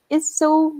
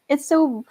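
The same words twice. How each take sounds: The two takes are said the same way.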